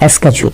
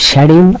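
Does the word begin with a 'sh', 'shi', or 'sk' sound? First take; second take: sk; sh. First: The word begins with an 'sk' sound. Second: The word begins with a 'sh' sound. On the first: "আর একটা হচ্ছে স্কেজুল" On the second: "একটা হচ্ছে শ্যাডিউল"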